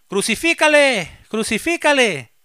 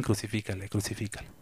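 First: Very high, loud cry, the second one slower; crowd shouting. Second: Much softer, low murmured "Crucifícale"; almost under the breath; quiet recalled cry. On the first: A narrator's reading. Crowd cries out to Pilate for crucifixion, high loud shout. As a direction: roar for the crucifixion like a mob. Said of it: "volvieron a dar voces diciendo". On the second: Retold or imitated. Preacher softly recalls the crowd's cry, quiet murmur.

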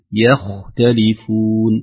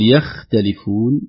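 First: يختلفون with a light ي and a heavy خ; slow model take of يختلفون; correct tajweed. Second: يختلفون with the خ made light by the ي; wrong, thinned خ. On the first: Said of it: "ترقق الياء وتفخم الخاء". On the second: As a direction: show the mistake in يختلفون. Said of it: "لا نقول". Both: Shown as a demonstration.

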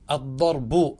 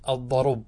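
First: "الضرب" said ad-darbu, silent vowel after r, final u; original case ending. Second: "الضرب" said ad-darub, u moved onto r; pause by transfer. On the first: Teacher gives the original form, "الضرب" said ad-darbu. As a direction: sound the closing u in "الضرب": ad-darbu. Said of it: "هذا أصله". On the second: Teacher shows vowel transfer, "الضرب" said ad-darub. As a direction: stop on b after u: ad-darub. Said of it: "انقلها إلى الراء وسكن الباء". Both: Shown as a demonstration.

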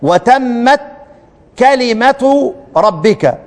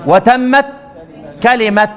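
First: كلمة ربك read through as "kelimet rabbika" with the ta sounded; slow recitation linking كلمة ربك with a clear t; joined recitation. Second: كلمة said as "kelime" at the pause; pausal stop. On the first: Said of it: "بصوا عندكم كده في سورة الأنعام". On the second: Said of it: "هنقف عليها كلمة ولا كلمة؟". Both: Shown as a demonstration.

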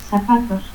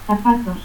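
First: Zapatos as "sapatos"; seseo. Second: Said in the usual way. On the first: Shown as a demonstration. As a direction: start Zapatos with an S.

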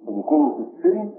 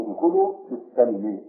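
First: السلم said as silm, the sin with a short i; silm with kasra. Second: السلم said as salm, the sin with an open a; salm with fatha. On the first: Teacher shows the first reading to his students, silm with kasra. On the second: Teacher shows the second reading to his students, salm with fatha. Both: Shown as a demonstration. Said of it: "السلم بكسر السين وفتحها".

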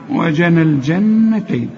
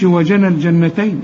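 First: Slow "وجنى الجنتين" with a long humming double n; correct ghunna. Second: "وجنى الجنتين" with the double n cut short; wrong, no ghunna. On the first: Teacher models the required ghunna, "الجنتين" with held n. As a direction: hold the nasal n inside "الجنتين". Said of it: "النون التانية اللي عليها الشدة لازم تغن". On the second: Teacher shows what not to say, "الجنتين" without nasal hold. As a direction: pass over the n of "الجنتين" without humming. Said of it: "ما تقولش". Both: Shown as a demonstration.

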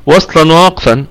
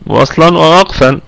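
Both takes have the same delivery.

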